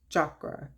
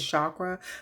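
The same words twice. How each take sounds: First: The word begins with a hard ch sound. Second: The word begins with a soft sh sound. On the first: The speaker calls it right. "It's like C H, like ch, like if you would say chalk" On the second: The speaker calls it wrong. "I say chakra"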